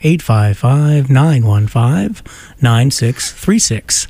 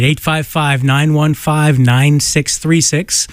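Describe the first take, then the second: First: The number is read more slowly. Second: The number is read at normal speed.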